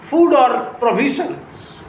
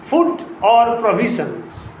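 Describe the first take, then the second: The two takes are said the same way.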